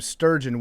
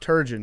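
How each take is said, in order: First: An s sound is added at the very start. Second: It starts with t and has two syllables. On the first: The speaker calls it wrong. "or they call him sturgeon, which is actually the name of a fish" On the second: The speaker calls it right. "But it's Turgeon"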